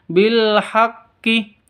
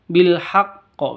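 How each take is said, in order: First: The final consonant is followed by an i vowel. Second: The final consonant is held, then released with an echo. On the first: The speaker calls it wrong. "bukan bil haqqi" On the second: The speaker calls it right. "ditahan dulu baru dikeluarkan de qalqalahnya"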